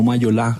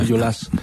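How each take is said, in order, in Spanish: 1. El sonido final de la S se omite. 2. El sonido final de la S se pronuncia. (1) "no Mayolá" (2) "se pronuncia la S"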